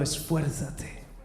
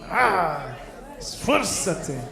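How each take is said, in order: First: It is said flatly, with little energy. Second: It is said forcefully, with much energy.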